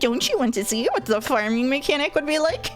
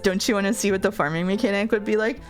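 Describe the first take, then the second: First: It is said in a put-on character voice. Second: It is read in the speaker's normal voice. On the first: "Dominic's voice actor would be like" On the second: "Dominic says"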